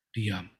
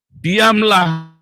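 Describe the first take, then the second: First: Diam said much softer and lower, almost breathed out; hushed. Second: Diamlah called out higher and louder; firm command. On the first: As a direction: let "Diam" sink into near silence. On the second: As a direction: bark "Diamlah" as a firm order. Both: Shown as a demonstration. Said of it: "tenanglah supaya kamu dapat berdoa".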